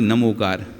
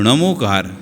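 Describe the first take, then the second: First: नमोकार with a plain dental n. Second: नमोकार with a retroflex ṇ at the start. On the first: Teacher contrasting the wrong Hindi reading, dental na. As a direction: begin नमोकार on a dental na, tongue on the teeth. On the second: Teacher contrasting correct Prakrit reading, retroflex ṇa. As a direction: begin नमोकार on ṇa, tongue curled back. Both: Shown as a demonstration. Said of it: "ना कि नमोकार".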